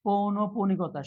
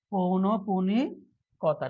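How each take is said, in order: First: Said in the usual way. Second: পৌনঃপুনিকতা drawn out very slowly; slow dictation. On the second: Shown as a demonstration. Teacher repeating the answer for students, slow and drawn-out. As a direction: stretch out পৌনঃপুনিকতা for learners.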